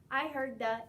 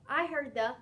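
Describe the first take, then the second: No difference in how they are said.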